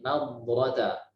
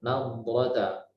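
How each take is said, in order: Both takes have the same delivery.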